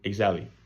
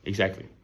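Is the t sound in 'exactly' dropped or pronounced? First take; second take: dropped; dropped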